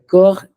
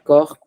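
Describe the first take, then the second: First: The word ends without a p or s sound. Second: The word ends with a sounded final consonant. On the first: The speaker calls it right. "I don't sound the P at all" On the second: The speaker calls it wrong. "It's not corps"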